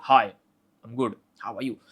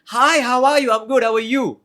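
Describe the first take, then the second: First: Calm, dominant, means business; authoritative tone. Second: High, loud, upward-inflected hello; bubbly and eager, every phrase lifted; ultra energetic greeting. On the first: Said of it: "Second is completely authoritative". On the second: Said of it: "completely approachable, upward inflected". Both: Shown as a demonstration.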